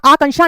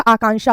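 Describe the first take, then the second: First: आकांक्षा with a short first vowel, "a-kanksha"; wrong pronunciation. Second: आकांक्षा with a long first 'aa'; correct pronunciation. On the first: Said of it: "आकांक्षा नहीं होता". (आकांक्षा को 'अकांक्षा' बोलना) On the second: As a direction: hold the opening of "AA-kanksha" in आकांक्षा. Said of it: "आकांक्षा होता है". (आकांक्षा में लंबा 'आ') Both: Shown as a demonstration.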